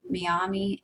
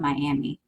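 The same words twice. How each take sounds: First: Miami as mee-AH-mee, AH like father. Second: Miami as my-AM-ee, AM like cat. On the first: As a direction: Miami with mee at the start and AH in the middle. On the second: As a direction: Miami with my at the start and AM in the middle. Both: Shown as a demonstration. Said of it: "or it's also called Miami".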